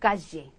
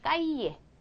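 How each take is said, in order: First: The double-L is sounded like a J. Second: The double-L is sounded like a Y. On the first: This is how it sounds in Argentina. "아르헨티나 쪽 가면 얘를 더 지에 이래가지고" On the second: This is the most standard pronunciation. "가장 정상적인 발음은 그냥 까이에"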